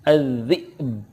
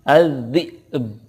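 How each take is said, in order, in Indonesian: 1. Kata az-zi'bu diakhiri dengan b yang memantul. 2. Kata az-zi'bu diakhiri dengan b yang memantul.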